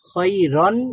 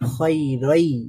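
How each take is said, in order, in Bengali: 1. শব্দের শেষে একটি স্পষ্ট ন সাউন্ড আছে। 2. শেষের ন সাউন্ড ড্রপ হয়, শব্দটি "ai" দিয়ে শেষ হয়। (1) "খয়রন না বলে" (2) "বলতে হবে খয়রাই"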